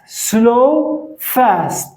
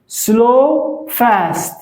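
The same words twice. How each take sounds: The two takes are said the same way.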